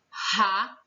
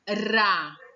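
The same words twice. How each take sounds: First: The r is a strong, harsh sound. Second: The r is a light tap of the tongue. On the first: "Esse daqui eu tenho ra" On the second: "O outro eu tinha ra"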